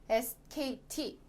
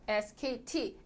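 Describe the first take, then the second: Both takes have the same delivery.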